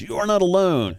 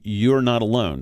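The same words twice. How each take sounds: First: "not" hit high and leaning down, rest falls; strong emphasis on not. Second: Said in the usual way. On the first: Shown as a demonstration. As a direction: stress the word "not" strongly, like a promise. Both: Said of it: "We want that to be very strongly emphasized".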